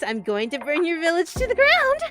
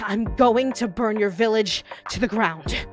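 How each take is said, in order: First: It is spoken high up in head voice. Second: It is spoken resonantly from the chest voice. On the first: "all the way up in your head voice" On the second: "Their chest voice"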